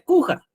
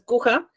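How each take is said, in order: First: The stress is on the first syllable. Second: The stress is on the last syllable. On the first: The name is written without an accent mark. "Si no llevara tilde, la pronunciación sería cuja" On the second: The name is written with an accent mark on the A. "si lleva tilde, entonces es cuja, y sí se tiene que pronunciar donde lleva la tilde"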